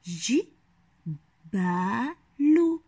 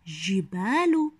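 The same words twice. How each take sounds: First: ج، ب، ل as three separate syllables with long pauses; ج، ب، ل broken apart for young readers. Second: Said in the usual way. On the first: Shown as a demonstration. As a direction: sound out ج، ب، ل slowly, middle syllable held long. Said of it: "الآن أحلل الكلمات التالية". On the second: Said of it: "هيا نحاول أن نقرأ الكلمة".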